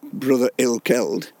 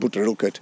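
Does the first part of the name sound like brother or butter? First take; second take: brother; butter. First: The name is said fully, like brother. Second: The name is shortened, like butter.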